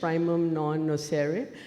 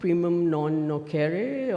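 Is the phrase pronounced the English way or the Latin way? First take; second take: English; Latin. First: It is pronounced with English sounds. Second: It is pronounced with Latin sounds. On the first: "or in English" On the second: "we may pronounce it in Latin"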